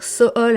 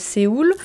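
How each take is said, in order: First: The name is pronounced in a Korean way. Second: The name is pronounced in a French way. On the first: "quand je parle coréen" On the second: "à la place de"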